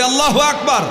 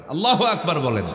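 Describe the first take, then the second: First: High, loud rallying cry of Allahu Akbar; loud call. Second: Said in the usual way. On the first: Real, not acted. Preacher leading the crowd in a loud takbir. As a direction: shout it out to lift the crowd. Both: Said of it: "জোরে বলি".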